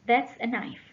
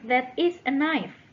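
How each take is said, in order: First: That and is merge into one syllable, that's. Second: Both words, that and is, are said separately.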